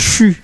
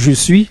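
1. La locution est condensée en une seule syllabe courte. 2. La locution est prononcée en deux syllabes pleines. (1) "les Québécois disent chu" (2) "c'est je suis"

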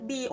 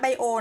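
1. คำนี้ออกเสียงแบบฝรั่งเศส เช่น 'bee-oh' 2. คำนี้ออกเสียงแบบไทย เช่น 'bai-oh'

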